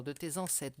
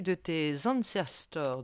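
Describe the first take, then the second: First: "ancêtres" corrected to the French word; French correction. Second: "ancestors" said the English way, slowly; English slip. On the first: Reader corrects herself to the French "ancêtres". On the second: Reader slips into English for the ancestors, said slowly. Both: Real, not acted.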